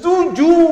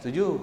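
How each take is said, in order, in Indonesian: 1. Diucapkan dengan intonasi yang kuat dan tegas. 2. Diucapkan dengan cara biasa dan netral.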